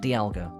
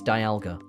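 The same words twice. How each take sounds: First: The first syllable does not sound like dial. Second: The first syllable sounds like the word dial. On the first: The speaker calls it wrong. "not Dialga" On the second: The speaker calls it right. "it's Dialga"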